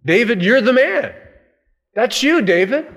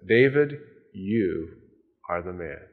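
First: Higher, louder pointing finger; forceful accusation. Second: Low, hushed and grave; solemn quiet accusation. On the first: Preacher repeating Nathan's charge to David, loud and higher. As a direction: drive the accusation home hard. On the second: Prophet Nathan quietly accusing King David, low and grave. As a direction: let the verdict drop quietly. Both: Acted.

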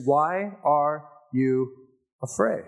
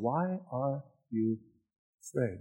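First: "afraid" drawn out slowly and rising; slow searching question. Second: Much softer, slow "Why are you afraid?"; soft intimate question. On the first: Preacher reading Jesus' question to the church, slow. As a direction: let "Why are you afraid?" hang, slow and rising. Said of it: "Verse twenty-six". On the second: Preacher asking the congregation personally, soft and slow. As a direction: drop to a near hush and ask gently. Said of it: "asking you that same question". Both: Acted.

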